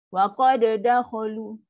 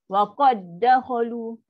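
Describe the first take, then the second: First: The d is released with a bounce, then repeated. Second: The two d sounds merge into one held sound. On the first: The speaker calls it wrong. "Dia kan baca bunyi-bunyi dua kali" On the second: The speaker calls it right. "Awak kena baca"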